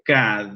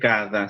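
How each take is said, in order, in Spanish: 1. La palabra termina en la consonante d. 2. La palabra termina en la vocal a. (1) "se dice kad" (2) "Cuando en croata no se dice cada"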